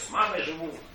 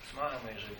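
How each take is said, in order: First: It is said in a cheerful, upbeat tone. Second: It is said in a flat, glum tone. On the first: Living with his mother is something to be glad about. The speaker calls it wrong. "как я сказал" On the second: Living with his mother is a somewhat sad admission. The speaker calls it right. "не так радостно"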